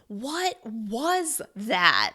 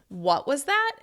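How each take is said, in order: First: Every word is stressed separately. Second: The stress falls on the word what. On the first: You are shocked and cannot believe it. "you're going to stress each word individually" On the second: You heard something that was a little rude. "you're bringing extra stress to the word what"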